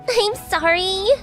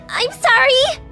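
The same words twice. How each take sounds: First: It is said quietly. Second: It is said loudly.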